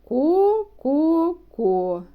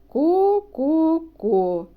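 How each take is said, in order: Both takes have the same delivery.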